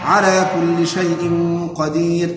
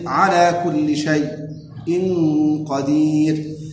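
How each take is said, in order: First: Shay' flows smoothly with no break before the hamza. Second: A brief silent break comes before the hamza of shay'. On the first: "بترك السكت" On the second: "وبالسكت"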